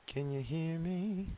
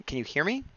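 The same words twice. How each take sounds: First: Very slow, softer and higher call; drawn-out calling. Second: Said in the usual way. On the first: Pretend. Streamer playfully calling to a chatter with connection trouble, drawn-out calling. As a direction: stretch every word, lifting the pitch toward the end.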